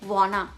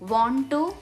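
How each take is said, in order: First: The words are cut and run together. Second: Both words are said fully and separately.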